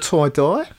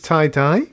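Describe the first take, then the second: First: It is said in an Australian accent. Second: It is said in a neutral accent.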